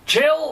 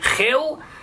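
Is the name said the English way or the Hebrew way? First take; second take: English; Hebrew. First: The name is said with plain English pronunciation. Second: The name is said with Hebrew-style pronunciation.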